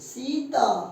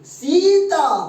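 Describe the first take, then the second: First: The first vowel is said softly and briefly. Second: The first vowel is stretched out and said loudly. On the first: It is spelled with a single i. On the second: It is spelled with a double e.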